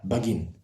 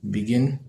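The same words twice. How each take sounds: First: The first syllable is pronounced 'ba'. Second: The first syllable is pronounced 'be'. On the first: The speaker calls it wrong. "Instead of be, you say ba" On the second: The speaker calls it right. "instead of saying uh, begin"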